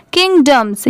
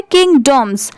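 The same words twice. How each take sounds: First: किंगडम्स with the second syllable as short 'dum'; reduced 'dum' sound. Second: किंगडॉम्स with a full, rounded 'dom'; full 'dom' sound. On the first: Teacher showing everyday pronunciation, किंगडम्स ending in quick dums. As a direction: shorten the vowel in किंगडम्स to dum, not dom. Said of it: "यहाँ पर डम की sound आ जाएगी". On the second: Teacher contrasting spelling with speech, किंगडॉम्स with full dom. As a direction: give the second syllable of किंगडॉम्स its spelled o vowel. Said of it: "पूरा डॉम का नहीं use करेंगे". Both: Shown as a demonstration.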